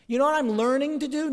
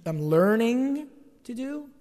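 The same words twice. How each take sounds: First: Said in the usual way. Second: "learning" drawn out slowly with a questioning rise; slow, teasing repeat stressing "learning"; stressed learning. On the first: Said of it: "Did you notice I". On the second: Shown as a demonstration. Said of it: "I used the present progressive participle there?".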